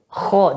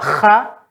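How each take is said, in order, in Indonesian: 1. Bunyinya berat, belakang lidah dinaikkan. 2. Bunyinya ringan, belakang lidah tidak dinaikkan. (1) "tinggal belakang lidah dinaikkan menjadi kho" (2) "sifat isti'lanya nggak ada kalau kha"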